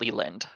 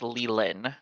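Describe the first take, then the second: First: The name ends with a D sound. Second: The name ends without a D sound. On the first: The speaker calls it wrong. "not Leland" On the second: The speaker calls it right. "it's Leland"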